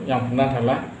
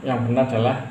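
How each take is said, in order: Both takes have the same delivery.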